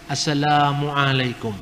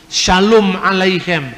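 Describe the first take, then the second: First: Assalamualaikum said with a long a. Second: Shalom alaikum said slowly with a clear sh; Hebrew greeting. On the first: Preacher showing a class the Arabic form of the greeting. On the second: Preacher showing a class the Hebrew form of the greeting. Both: Shown as a demonstration. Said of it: "A-nya yang panjang".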